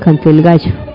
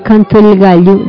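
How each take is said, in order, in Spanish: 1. La doble L se dice con pronunciación argentina. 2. La doble L se dice sin pronunciación argentina. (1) "dicen canto el gallo. Así hablan los argentinos" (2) "a cambio de decir"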